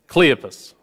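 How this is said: The name is said with a Southern American accent. "We're going to go with a southern pronunciation"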